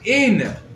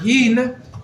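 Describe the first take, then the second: First: The word starts directly with a vowel. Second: The word starts with an h sound. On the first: Speakers who could not make the h sound said it this way. The speaker calls it wrong. "they said the word" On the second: This is the word as it should be said. The speaker calls it right. "anytime they came to say the word"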